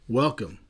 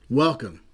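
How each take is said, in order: Both takes have the same delivery.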